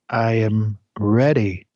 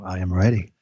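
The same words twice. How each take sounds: First: It is said in a plain, normal voice. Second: It is said in a deep voice.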